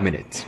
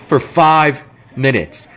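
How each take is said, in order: First: Said in the usual way. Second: Slow, stress on five; slow emphasis. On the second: Real, not acted. Sam stresses how short the time was, slow with five hit hard. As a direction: drag out the word five for disbelief.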